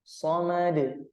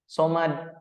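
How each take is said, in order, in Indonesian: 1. Huruf d di akhir berakhir dengan pantulan pendek yang bergema. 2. Huruf d di akhir berakhir datar tanpa pantulan. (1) "suara pantulannya ya kembali kepada hurufnya lagi" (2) "tidak dipantulkan atau tidak dikolkolahkan"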